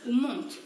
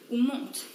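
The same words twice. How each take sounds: The two takes are said the same way.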